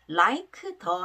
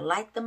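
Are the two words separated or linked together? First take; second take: separated; linked. First: The two words are said separately. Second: The two words run together smoothly. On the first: The speaker calls it wrong. "like 더 하지 마시고요" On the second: The speaker calls it right. "여름돼서"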